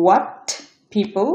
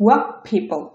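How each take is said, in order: First: Said in the usual way. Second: What said "wap" before people; assimilated T. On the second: Shown as a demonstration. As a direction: end what on p, merging into people. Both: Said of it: "এটা উচ্চারণ হবে".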